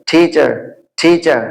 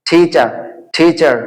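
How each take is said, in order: Both takes have the same delivery.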